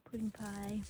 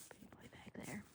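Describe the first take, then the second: First: Said in the usual way. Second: "Pudding pie back there" whispered softly. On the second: Real, not acted. Whispering a pet name to a calf in the barn. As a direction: breathe "Pudding pie" so the calf isn't startled. Cooing at the calves.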